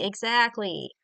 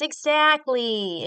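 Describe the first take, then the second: First: Said in the usual way. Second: Drawn-out EXACTLY, louder and higher; emphatic. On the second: Real, not acted. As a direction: stretch out EXACTLY slowly with force. Emphatic agreement, repeated word.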